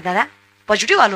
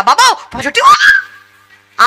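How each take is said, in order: First: Retold in a low, soft voice; imitating a hushed admission on the phone; subdued confession. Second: Drawn-out, high-pitched shout of alarm; hammed-up panic, stretch the last word into a cry; mock horrified yell. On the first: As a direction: quietly own up, voice dropped low. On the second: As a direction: imitate someone shrieking at bad news. Mocked horrified reaction to the news.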